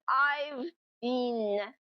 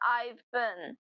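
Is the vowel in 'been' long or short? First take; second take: long; short. First: The vowel in been is long. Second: The vowel in been is short and reduced.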